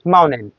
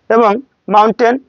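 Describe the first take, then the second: First: মাউন্টেন with the T left out, mounen; dropped T. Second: Said in the usual way. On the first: Shown as a demonstration. Teacher showing the American dropped T in মাউন্টেন. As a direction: skip the T in মাউন্টেন.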